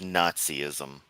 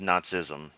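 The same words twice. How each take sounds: First: It is said with an extra vowel before -ism. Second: It is said without an extra vowel before -ism. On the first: The speaker calls it wrong. "not so much Nazism. There's only the one I in there" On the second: The speaker calls it right. "it ends up actually reading as Nazism"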